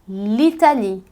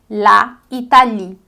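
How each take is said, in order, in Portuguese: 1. A vogal do artigo é eliminada antes da palavra. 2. A vogal do artigo é mantida antes da palavra. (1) "então a gente vai dizer l'Italie" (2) "em francês a gente não pode dizer la Italie"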